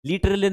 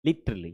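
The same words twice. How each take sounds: First: Literally said with a stressed rising end; wrong pronunciation. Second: Literally said low and short, tongue flapped on the t; correct pronunciation. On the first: Teacher demonstrates how Literally is said wrong. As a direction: show the mispronounced Literally. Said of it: "Literally नहीं, नहीं।". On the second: Teacher models the correct literally for students. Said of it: "This is". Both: Shown as a demonstration.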